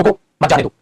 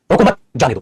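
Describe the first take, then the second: First: रोको alone, brief stop, then मत जाने दो together; pause after रोको. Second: रोको मत together, brief stop, then जाने दो; pause after मत. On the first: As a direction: break right after रोको, running मत into जाने दो. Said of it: "कहाँ ठहराव आ रहा है". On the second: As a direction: break right after मत, setting जाने दो apart. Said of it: "उसमें फर्क आ जाता है". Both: Shown as a demonstration.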